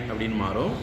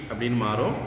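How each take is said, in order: The two takes are said the same way.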